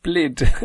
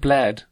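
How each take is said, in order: First: The vowel sounds like the one in 'lid'. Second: The vowel sounds like the one in 'bed'. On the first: "I know it's pronounced Blid" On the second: "A lot of people will pronounce it Bled, because it's spelled Bled"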